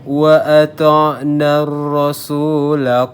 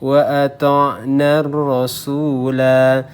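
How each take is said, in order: First: The final vowel of rasula is cut short. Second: The final vowel of rasula is held long. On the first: The reading continues into the next words. "La-nya jadi pendek karena kita wasolkan atau kita sambung bacaannya" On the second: The reading stops at this point. "kalau kita berhenti ya, berhenti di sini ... Berlaku mat seperti biasa di sini"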